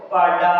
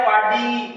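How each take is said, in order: First: पाडा ending in a long a sound; the corrected form पाडा with a final a; correct word. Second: पाडी ending in a long i sound; the mistaken form पाडी with a final i; wrong word. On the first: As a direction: say पाडा with a clear open a at the end. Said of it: "क्या था बोलो?". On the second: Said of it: "लेकिन पाडी नहीं था।". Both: Shown as a demonstration.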